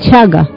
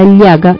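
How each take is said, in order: First: The double L is said with Argentine pronunciation. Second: The double L is said without Argentine pronunciation. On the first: "dicen chaga" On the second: "en la palabra llaga"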